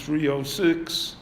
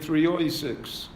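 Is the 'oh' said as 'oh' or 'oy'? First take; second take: oh; oy. First: The middle word is said with a plain 'oh'. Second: The middle word is said with an 'oy' sound.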